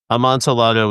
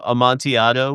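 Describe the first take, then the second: First: The word is said in an anglicized style. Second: The word is said in a Spanish style. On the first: "a pretty acceptable, like westernized version of it" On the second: "a little bit closer to the Spanish pronunciation"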